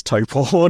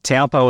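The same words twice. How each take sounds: First: Taupo said like "TOE-paw"; corrected pronunciation. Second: Taupo said like "TOW-po", first part rhyming with cow; old mispronunciation. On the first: Interviewer carefully showing the newly learned name, corrected pronunciation. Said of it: "my brain adapts to pronouncing it as". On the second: Interviewer owning up to an earlier habit, mispronunciation. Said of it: "as I started calling it". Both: Shown as a demonstration.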